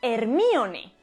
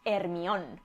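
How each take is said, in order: First: The name is said in full, ending in 'ne'. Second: The name is shortened and ends in 'on'. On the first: This matches the original Greek name. The speaker calls it right. "la pronunciación correcta debería ser Hermione" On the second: This is how people in Spain usually say it. The speaker calls it wrong. "en España decimos Hermión"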